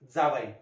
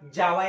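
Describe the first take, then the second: First: The first consonant is a dental-palatal sound. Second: The first consonant is a palatal sound. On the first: The speaker calls it right. "जावई दंत तालव्य" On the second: The speaker calls it wrong. "असं म्हणतात का? नाही"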